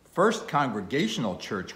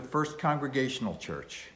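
First: Louder, pitched-up mild exclamation; mild outcry. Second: Said in the usual way. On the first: A narrator's reading. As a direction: cry it out in moderate disbelief. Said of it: "cried Bildad". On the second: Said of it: "said I".

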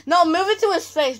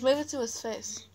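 First: Raised bossy instruction; loud. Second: Said in the usual way. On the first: Real, not acted. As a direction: call the order out. Directing the camera holder.

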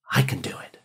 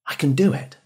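First: A low breathy whisper to yourself; whispered affirmation. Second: Said in the usual way. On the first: Shown as a demonstration. Student whispering self-belief to himself before a test, hushed whisper. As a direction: breathe it like a private promise.

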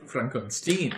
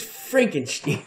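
First: Frankenstein said as "Fronkon-steen"; film-style mispronunciation. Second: Frankenstein said slowly as "Franken-steen"; corrected pronunciation. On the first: Player quoting Young Frankenstein, Frankenstein pronounced "Fronkon-steen". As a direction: say Frankenstein with "on" in the middle and "steen" at the end. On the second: Game master correcting a film quote, Frankenstein drawn out as "Franken-steen". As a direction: stretch out Frankenstein with a "steen" ending. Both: Acted. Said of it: "It's like young Frankenstein".

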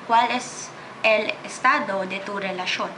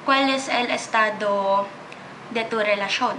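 No difference in how they are said.

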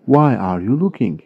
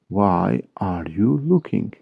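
First: Said in the usual way. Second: "Why are you looking" slowly, word by word; slow model repeat. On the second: Shown as a demonstration. English teacher repeating a question for Turkish learners, slow model repeat. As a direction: lengthen every word for learners.

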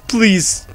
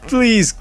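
The two takes are said the same way.

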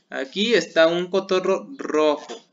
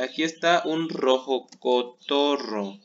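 First: A little louder, with stress on está; corrected order. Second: Slow, deliberate aquí está un rojo cotorro; wrong word order. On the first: Teacher gives pupils the correct order. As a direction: state the fixed sentence firmly. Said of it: "tenemos que ordenarlo". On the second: Teacher shows pupils the wrong word order. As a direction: lay out the mistake slowly. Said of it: "¿Pero está bien ordenado en español?". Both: Shown as a demonstration.

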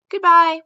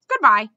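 First: A louder, higher call to someone leaving; the king calling to the vanishing squirrel; calling after her. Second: Said in the usual way. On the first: A narrator's reading. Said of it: "Mendenbar called after her".

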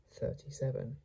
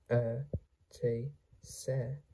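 First: Said in the usual way. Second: "Thirty-seven" softly split into separate sounds; sounded out. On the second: Shown as a demonstration. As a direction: softly break "Thirty-seven" into pieces with pauses. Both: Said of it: "How to pronounce this word?".

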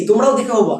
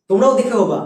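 No difference in how they are said.

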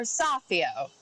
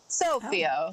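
First: Sofio with an open "ah", "SAH-fee-oh"; open-vowel pronunciation. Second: Sofio with a long O, "SOH-fee-oh"; long-O pronunciation. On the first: Reporter offering co-host the other option, Sofio as SAH-fee-oh. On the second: Reporter asking co-host about an Italian name, Sofio as SOH-fee-oh. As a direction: say Sofio starting like the word "so". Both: Shown as a demonstration. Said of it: "or is it So-, Sofio or Sofio".

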